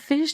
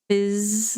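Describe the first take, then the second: First: The word ends with an sh sound. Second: The word ends with a buzzing z sound. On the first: The speaker calls it wrong. "I know I said fish" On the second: The speaker calls it right. "like like full on Z"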